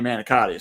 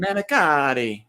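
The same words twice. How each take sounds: First: Said in the usual way. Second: Manicotti in a hammed-up Italian accent, slow; mock Italian accent on manicotti. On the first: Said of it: "instead of just saying". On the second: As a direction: say manicotti like a fake Italian, drawn out. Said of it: "pretend like they're Italian".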